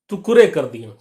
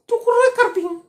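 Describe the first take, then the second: First: Said in the usual way. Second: Much higher, lisping, laughing whine; lisping friend. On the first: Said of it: "ऐसे कभी-कभी बोला". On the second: Retold or imitated. Friend complaining to the sister in a high lisp. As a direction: lisp it out like a whiny boy. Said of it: "तुतलाता कभी-कभी था".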